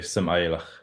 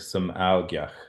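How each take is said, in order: First: The word is said with sounds dropped. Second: The word is said with all its sounds. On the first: "They all say" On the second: "the whole word"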